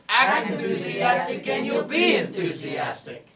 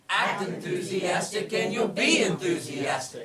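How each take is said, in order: First: It is said more loudly. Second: It is said at normal volume.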